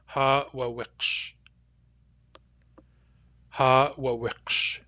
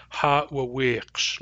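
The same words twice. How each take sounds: First: "Ha wa wiqsh" slow with a clipped third vowel; long, short, short. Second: "ha wa wiqsh" with the last vowel held long, slowly; long, short, long. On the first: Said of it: "this word is long, short, short". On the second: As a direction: stretch the final syllable of "ha wa wiqsh". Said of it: "long, short, long". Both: Shown as a demonstration.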